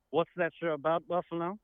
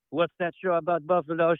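First: The title said in a mock English accent; English accent, rising on that; softly voiced English accent. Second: The title said in a mock French accent; French accent, stress on Buffalo; snooty French accent. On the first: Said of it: "a special England guest". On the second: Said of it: "I'll make fun of the French".

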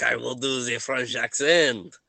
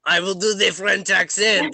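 First: Put-on French accent at usual pitch. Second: Put-on louder, higher French accent; insistent French accent. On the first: Game master announces the new voice, measured French accent. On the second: Game master corrects a player who heard British, indignant French accent.

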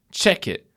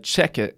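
First: Higher, challenging retort; confrontational imitation. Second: Said in the usual way. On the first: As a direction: mimic someone itching for a fight. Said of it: "as if he was gonna fight me". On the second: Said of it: "At one point I said".

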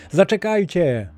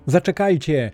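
First: Even higher, more urgent call; shouting louder. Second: Higher, calling after them; shouting. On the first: Castaway shouting again as the men leave, more urgent. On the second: Castaway shouting after the departing men, calling out. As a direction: shout to the men running away. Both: A narrator's reading. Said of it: "krzycząc".

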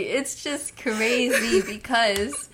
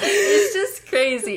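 First: Said in the usual way. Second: Mock crying. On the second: Mock sob over fake sad news.

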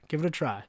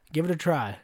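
The two takes are said the same way.

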